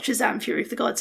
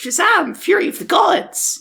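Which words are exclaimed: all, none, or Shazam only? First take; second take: none; all. First: The whole title is said flatly, without exclaiming. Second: Both parts of the title are loudly exclaimed. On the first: "we did pronounce the title wrong" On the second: "an exclamation mark to the end of Fury of the Gods as well"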